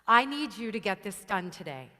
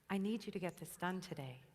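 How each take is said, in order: First: It is said at a normal, neutral intensity. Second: It is said with low, timid intensity.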